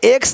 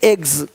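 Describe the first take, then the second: First: The word ends with a hissing s sound. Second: The word ends with a buzzing z sound. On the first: The speaker calls it wrong. "नहीं" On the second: The speaker calls it right. "ज का sound आ रहा है हल्का सा"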